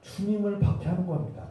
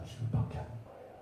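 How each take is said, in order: First: Said in the usual way. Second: Whispered, much softer; hushed repetition. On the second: Real, not acted. Preacher driving home persecution of the Lord, hushed whisper. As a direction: drop to a grave whisper. Same point repeated in a hush.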